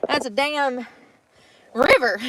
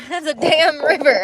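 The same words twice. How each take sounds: First: Said in the usual way. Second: Laughing through the words, louder. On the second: Real, not acted. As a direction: crack herself up repeating the joke. Laughs while repeating joke.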